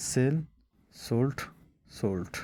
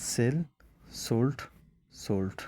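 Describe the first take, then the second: No difference in how they are said.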